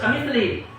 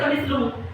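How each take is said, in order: First: The word ends with an i vowel. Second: The word ends with a u vowel. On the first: The speaker calls it right. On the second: The speaker calls it wrong. "nggak boleh"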